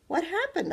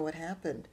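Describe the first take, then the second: First: What happened? asked high, rising over the word happened; a girl waking up confused; pitched up child voice on What happened?; dazed question. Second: Said in the usual way. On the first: A narrator's reading. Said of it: "I asked".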